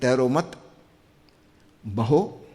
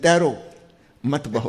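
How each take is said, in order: First: The pause comes after the second word. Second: The pause comes after the first word.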